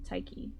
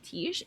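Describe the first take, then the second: First: The name is pronounced the Greek way. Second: The name is pronounced in a non-Greek way. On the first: The name is treated as a Greek name. "I'm pronouncing it like it's a a Greek name" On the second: This is how others usually say it. "you always hear it like Tish"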